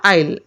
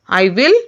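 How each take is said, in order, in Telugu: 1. రెండు పదాలు కలిసి ఒకే చిన్న అక్షరంగా మారతాయి. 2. రెండు పదాలనూ పూర్తిగా, విడివిడిగా అంటారు. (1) "You can say I'll" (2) "I will or I'll"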